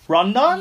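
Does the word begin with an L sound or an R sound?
R sound. The word begins with an R sound. The speaker calls it wrong. "So when people ask me in Japan"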